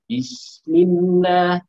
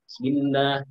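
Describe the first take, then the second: First: It is said slowly, with each sound held clearly. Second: It is said fast, with the first syllable blurred. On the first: The speaker calls it right. "Bismillah harusnya begitu" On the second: The speaker calls it wrong. "dengan nada cepat, lalu kemudian bisnya itu seperti hilang"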